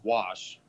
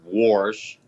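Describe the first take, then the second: First: It is said without an R sound. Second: It is said with an added R sound. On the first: The speaker calls it right. "I know there's not an R in wash" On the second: The speaker calls it wrong. "You don't say wash"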